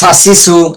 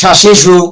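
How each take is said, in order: First: Each syllable starts with an s sound. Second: Each syllable starts with a sh sound. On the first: The speaker calls it wrong. "আপনি যেটা বলতেছেন এটা হচ্ছে এই যে" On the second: The speaker calls it right. "আমি সিনেটা আগে উচ্চারণ করতেছি।"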